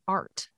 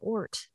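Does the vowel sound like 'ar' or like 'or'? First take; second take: ar; or. First: The vowel is open, like 'ar'. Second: The vowel is rounded, like 'or'. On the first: This is how it sounds outside New Orleans. "like A-R-T" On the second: This is how it sounds in a New Orleans accent. "I had to do a New Orleans accent and they say ort for art"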